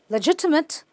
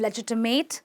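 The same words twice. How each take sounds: First: The last syllable has a short 'ih' vowel. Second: The last syllable has a full 'ay' vowel. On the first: The speaker calls it right. "It's simply" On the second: The speaker calls it wrong. "you do not want to call them"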